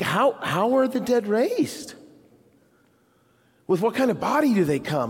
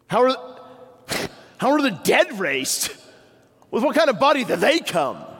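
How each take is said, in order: First: It sounds curious and eager to know. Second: It sounds edgy, with a note of accusation.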